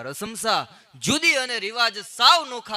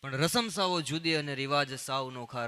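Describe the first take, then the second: First: Louder and slower, weight on સાવ; slow emphatic repeat. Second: Said in the usual way. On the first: Shown as a demonstration. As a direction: hammer home સાવ, loud and drawn out. Repeats the line for effect.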